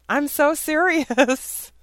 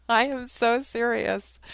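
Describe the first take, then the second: First: Slow and loud, leaning hard on "so"; emphatic insistence. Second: Said through a chuckle, lighter; amused insistence, laughter in the voice; laughing repeat. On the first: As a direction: stretch "so" high and long, dead earnest. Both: Real, not acted.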